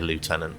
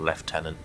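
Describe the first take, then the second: First: The word is said in an American way. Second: The word is said in a non-American way. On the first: The speaker calls it wrong. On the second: The speaker calls it right.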